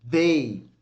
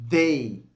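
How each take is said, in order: The two takes are said the same way.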